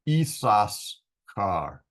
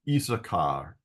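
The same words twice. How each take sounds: First: The middle s sound is said twice. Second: The middle s sound is said only once. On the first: This follows how the name is written. "I pronounce this name the way it's written" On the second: This is the usual way it is said. "It's usually Issachar, Issachar with one S"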